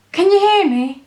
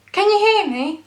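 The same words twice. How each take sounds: The two takes are said the same way.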